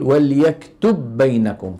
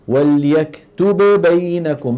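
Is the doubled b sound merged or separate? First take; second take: merged; separate. First: The two b sounds merge into one. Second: The b sound is articulated twice, separately. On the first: "يستسهل أن يقول" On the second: "بدل أن يذهب إلى مخرج الباء مرتين"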